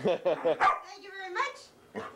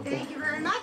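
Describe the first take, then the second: First: Slow, stretched thank you; savoring a thank-you very slowly; slow drawn-out thanks. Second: Said in the usual way. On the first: Real, not acted. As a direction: draw out each word to the dog. Thanking dog, repeats drawn-out.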